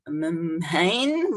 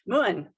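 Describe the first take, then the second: First: The vowel sounds like 'ay', as in 'main'. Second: The vowel sounds like 'oo', as in 'moon'. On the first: The name is read as if it were English. The speaker calls it wrong. "you look at that with an American pronunciation, you're like" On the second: The name is said as it is in Irish. The speaker calls it right. "that's pronounced Moon in Irish"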